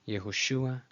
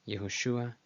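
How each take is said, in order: No difference in how they are said.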